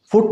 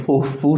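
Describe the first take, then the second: First: Said in the usual way. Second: "फू" as "foot" ended on the vowel; slow American "फू" with the T dropped; silent final T. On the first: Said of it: "फुट नहीं कहेंगे". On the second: Shown as a demonstration. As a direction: stop at "फू", no T. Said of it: "फू तक ख़त्म".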